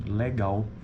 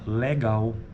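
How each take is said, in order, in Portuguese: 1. A primeira vogal é um e aberto. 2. A primeira vogal é um e aberto.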